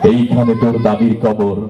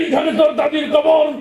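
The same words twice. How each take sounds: First: It is recited gently and beautifully. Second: It is recited loudly like a fiery speech. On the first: A good reciter is performing the poem. The speaker calls it right. "তার আবৃত্তি সুন্দর ছিল" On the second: A local politician is reciting like a rally speech. The speaker calls it wrong. "সবসময় গরম বক্তব্য দিয়ে অভ্যাস"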